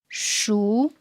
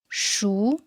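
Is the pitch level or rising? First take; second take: rising; rising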